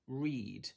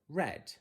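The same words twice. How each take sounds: First: The vowel is a long 'ee' sound. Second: The vowel is a short 'eh' sound. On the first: "er, eed, read" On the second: "it can also be er, ed, read"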